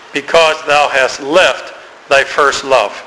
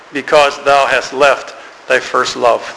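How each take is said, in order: No difference in how they are said.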